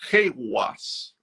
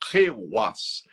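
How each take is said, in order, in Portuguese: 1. A consoante do meio soa como w. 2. A consoante do meio soa como w.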